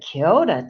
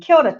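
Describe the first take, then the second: First: It is said in a flirtatious, lingering tone. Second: It is said in a casual, familiar tone. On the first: It shows romantic interest. "if perhaps I fancy you a little bit" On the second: It greets a well-known friend. "because I've got to know you quite well"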